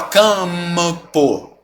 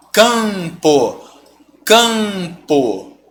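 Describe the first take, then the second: First: CAMPO as cam-muh-po, M pronounced; wrong CAMPO with an audible extra M; sounded M. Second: CAMPO with a long nasal A; nasalized demo. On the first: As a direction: hum a separate M inside CAMPO. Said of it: "Esse M você não pronuncia". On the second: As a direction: draw out CAMPO, M left silent. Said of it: "A pronúncia é a mesma". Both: Shown as a demonstration.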